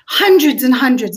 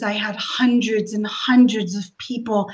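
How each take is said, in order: First: Hundreds and hundreds said louder, stress on the first hundreds; emphatic repeat. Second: Said in the usual way. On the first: Real, not acted. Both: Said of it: "I'm not kidding".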